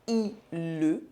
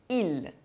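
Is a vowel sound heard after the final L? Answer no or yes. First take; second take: yes; no. First: An extra vowel sound follows the final L. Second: The word ends cleanly on the L sound. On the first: The speaker calls it wrong. "I don't say I le" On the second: The speaker calls it right. "I say il"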